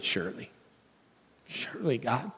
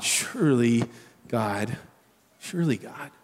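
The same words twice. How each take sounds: First: Worn-out believer sighing to God, softly exasperated. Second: Soft, low, weary plea; tired and honest with God; honest believer sighing to God, softly spent; exasperated honesty. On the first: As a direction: breathe it out, spent and done. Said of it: "give an exasperated". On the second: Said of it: "You hear it?". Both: Shown as a demonstration.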